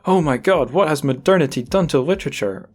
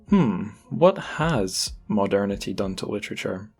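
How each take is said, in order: First: It is asked in a dismayed, exasperated tone. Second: It is asked in a thoughtful, pondering tone.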